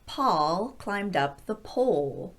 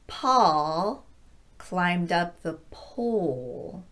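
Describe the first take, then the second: First: The sentence is spoken a bit faster. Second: The sentence is spoken very slowly. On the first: "a little bit faster the second time" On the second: "very slowly the first time"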